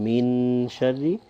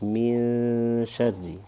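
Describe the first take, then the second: First: The n is pronounced fully with the tongue. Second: The n is a soft sound through the nose. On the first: The speaker calls it wrong. "you won't pronounce a full noon here" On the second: The speaker calls it right. "it'll be more from the nose"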